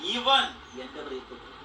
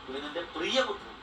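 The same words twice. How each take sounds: First: The stress falls on the first word. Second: The stress falls on 'beloved'.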